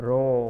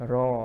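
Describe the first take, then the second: First: "raw" said the British way, rounder vowel like Thai สระโอ. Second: "raw" said the American way, vowel like Thai สระออ. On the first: Teacher demonstrating British "raw" to students, rounded vowel. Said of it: "British English". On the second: Teacher demonstrating American "raw" to students, open vowel. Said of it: "ภาษาอังกฤษแบบอเมริกัน". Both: Shown as a demonstration.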